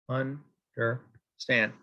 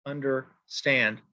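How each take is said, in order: First: "understand" broken into un, der, STAND with pauses; very slow "understand", each syllable on its own. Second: "Understand" as under-STAND, in one slow word; stress on last syllable. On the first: Teacher marking an anapest, "understand" split slowly into three beats. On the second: Teacher giving an anapest example, "Understand" slow with final stress. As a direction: lean on STAND at the end of "Understand". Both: Shown as a demonstration. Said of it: "two unstressed syllables followed by a stressed".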